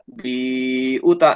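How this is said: There is a drawn-out hesitation in the middle. The reader stopped to think partway through. The speaker calls it wrong. "Biuta itu salah ya"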